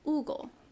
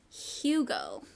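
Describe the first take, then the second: First: The name starts with a vowel, no H. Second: The name starts with an H sound. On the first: The speaker calls it right. "Hugo is how you pronounce it" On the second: The speaker calls it wrong. "but in English it's Hugo, which is so gross"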